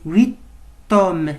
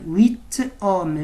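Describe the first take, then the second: Both takes have the same delivery.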